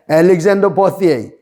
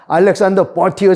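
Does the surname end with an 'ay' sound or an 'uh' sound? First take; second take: ay; uh. First: The surname ends with an 'ay' sound. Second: The surname ends with an 'uh' sound. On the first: This is how Americans say the name. "미국 사람들이 이걸 ... 버티에이라고 발음합니다" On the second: This is how the name is said in Korean. "우리말로는 그냥 알렉산더 버티어 장군이 더 좋습니다"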